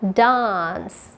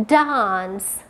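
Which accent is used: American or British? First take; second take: British; British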